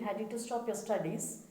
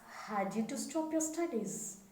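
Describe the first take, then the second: First: The word 'had' is said without extra stress. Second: The word 'had' is said louder, with stress. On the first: The speaker calls it wrong. "They don't point out the past verbs" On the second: The speaker calls it right. "say it louder"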